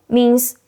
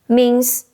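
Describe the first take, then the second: No difference in how they are said.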